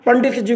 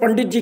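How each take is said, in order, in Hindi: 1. वाक्यांश की हर ध्वनि पूरी तरह बोली जाती है। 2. कुछ ध्वनियाँ छोटे, संक्षिप्त रूप में छूट जाती हैं।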